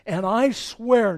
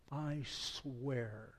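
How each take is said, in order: First: Loud, slow, higher sworn oath; divine oath. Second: Softer, lower, held back; solemn oath. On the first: God swearing judgment against Eli, thundering. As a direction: proclaim it like a raised hand to heaven. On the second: Preacher rereading God's oath, hushed and grave. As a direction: let the oath sink in quietly. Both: Acted. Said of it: "when God raises his hand and swears".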